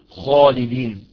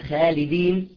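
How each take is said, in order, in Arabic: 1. الخاء ثقيلة وممتلئة في الفم. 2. الخاء خفيفة ورقيقة في الفم. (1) "اسمع خاء خالدين" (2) "هيئة الحرف اختلفت"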